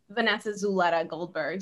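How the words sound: The name is said with an American English accent. "You could say it like"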